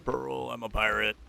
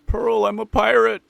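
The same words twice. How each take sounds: First: Said in the usual way. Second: Loud pirate announcement. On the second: Shown as a demonstration.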